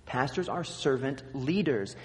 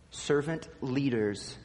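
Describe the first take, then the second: First: "leaders" carries the weight, "servant" passes lightly; stress on leaders. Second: Slow, weight on "Servant", "leaders" light; stress on servant. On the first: Pastor jokingly showing the wrong emphasis, "leaders" stressed. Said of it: "If you put the wrong emphasis on the wrong syllable". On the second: Pastor showing the congregation the right emphasis, "Servant" stressed. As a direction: lean into "Servant" and let "leaders" fall away. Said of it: "it makes all the difference where you put the emphasis". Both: Shown as a demonstration.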